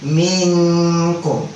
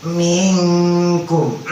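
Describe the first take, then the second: The two takes are said the same way.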